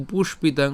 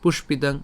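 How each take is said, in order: First: পুষ্পিতাং split after "push"; broken into parts. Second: পুষ্পিতাং run together without a break; joined as one. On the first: Teacher shows where to break, পুষ্পিতাং in two parts. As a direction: hold "push", then "pitang" in পুষ্পিতাং. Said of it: "তাই যে ভাঙবো". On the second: Teacher says it together, পুষ্পিতাং as one word. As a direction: say পুষ্পিতাং quickly linked, "pushpitang". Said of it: "আমরা একসাথে উচ্চারণ করব". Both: Shown as a demonstration.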